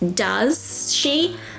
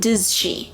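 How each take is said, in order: First: The two words are said separately and fully. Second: The two words are run together quickly. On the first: "which is does she" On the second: "in natural fast speech we say"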